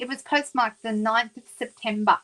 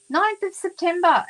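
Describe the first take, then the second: First: Said in the usual way. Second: Ninth of September thrown high and loud in disbelief; incredulous repeat. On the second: Real, not acted. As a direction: stress Ninth, amazed it took so long.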